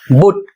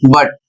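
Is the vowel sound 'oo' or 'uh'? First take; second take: oo; uh. First: The vowel is a short 'oo' sound. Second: The vowel is a short 'uh' sound. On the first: The speaker calls it wrong. "जबकि बुट सही नहीं है" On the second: The speaker calls it right. "इसका उच्चारण होगा बट"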